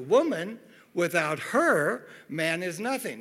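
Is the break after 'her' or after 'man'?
after her. The phrase breaks after the word 'her'. A man is worthless without a woman. "as opposed to"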